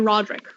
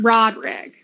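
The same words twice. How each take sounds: First: The name is said in a plain accent. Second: The name is said in a Southern accent. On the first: The speaker calls it wrong. "My mouth does not want to be able to say Roderick" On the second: The speaker calls it right. "Let's see if I can do this sound a little bit like my aunt and uncle"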